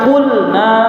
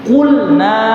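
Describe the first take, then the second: The two takes are said the same way.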